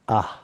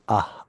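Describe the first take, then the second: First: The vowel sounds thin, with lips spread wide. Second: The vowel sounds thin, with lips spread wide.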